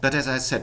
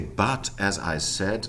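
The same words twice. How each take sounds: First: The vowel in but is a weak schwa. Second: The vowel in but is full and strong. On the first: The speaker calls it right. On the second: The speaker calls it wrong.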